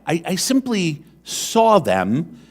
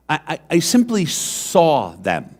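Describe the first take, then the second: First: Slow, higher, "saw" lifted with a rise; stress on saw. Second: "simply" leaned on, falling to the end; stress on simply. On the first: Preacher repeats his point slowly so the congregation hears "saw". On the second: Preacher tells the congregation what made the difference, stressing "simply". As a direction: weigh the word "simply". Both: Shown as a demonstration. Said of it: "Pay attention to that".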